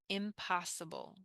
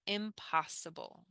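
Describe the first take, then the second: No difference in how they are said.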